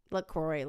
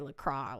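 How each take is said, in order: First: "LaCroix" ending in "-croy", falling; pronunciation attempt. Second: "LaCroix" ending in open "-crah", falling; second pronunciation attempt. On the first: Saying the drink name over, "LaCroix" rhyming with boy. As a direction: say "LaCroix" as "luh-KROY", lower. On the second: Saying the drink name over, "LaCroix" with a silent x. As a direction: say "LaCroix" as "luh-KRAH", low. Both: Shown as a demonstration.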